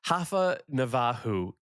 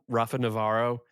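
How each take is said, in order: First: The name has a Brazilian Portuguese pronunciation. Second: The name has an English-style pronunciation. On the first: "is the uh, Brazilian Portuguese way" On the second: "I call him Rafa Navarro"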